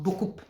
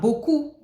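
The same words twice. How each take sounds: First: The final consonant is pronounced. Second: The final consonant is silent. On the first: The speaker calls it wrong. "is not" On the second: The speaker calls it right. "Never pronounce the last consonant"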